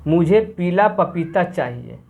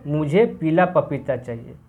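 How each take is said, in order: Both takes have the same delivery.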